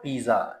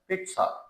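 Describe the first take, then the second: First: The middle consonant is a j sound. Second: The middle consonant is a ts sound. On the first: The speaker calls it wrong. "This is not पिज्जा" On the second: The speaker calls it right. "It's pronounced as पिट्सा"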